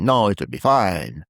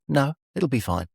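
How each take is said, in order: First: Slower, imitated Italian accent. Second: Said in the usual way. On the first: Tree man waving off counting the cash, Italian accent. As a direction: put on an Italian accent, drawn out. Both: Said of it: "In his Italian accent".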